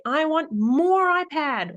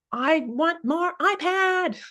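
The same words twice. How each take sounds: First: Put-on high, slow whiny little kid; mock child's whine, high and slow. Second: Put-on high, slow whiny little kid; mock child's whine, very high and slow. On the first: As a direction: drag out a childish whine for more. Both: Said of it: "the child might say".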